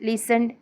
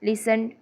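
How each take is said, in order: Both takes have the same delivery.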